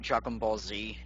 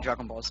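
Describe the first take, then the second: First: The letter Z is said as 'zee'. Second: The letter Z is said as 'zed'. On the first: The speaker calls it right. "with the exception of stuff like Dragon Ball Z" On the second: The speaker calls it wrong. "it just doesn't sound right"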